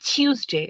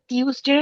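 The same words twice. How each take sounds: First: It is said in a British way. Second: It is said in a plain, non-British way.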